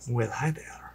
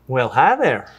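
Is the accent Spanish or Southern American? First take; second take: Spanish; Southern. First: It is said in a Spanish accent. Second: It is said in a Southern accent.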